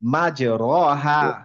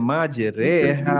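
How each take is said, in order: First: The vowel after the R is a plain 'a'. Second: The vowel after the R leans toward 'e'. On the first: This is the usual expected reading. "ওখানে হওয়ার কথা ছিল মাঝ র হা" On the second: This is the special reading called imala. "উনি বললেন হচ্ছে মাঝ রে হা ... এইটাকে বলে হচ্ছে ইমালা"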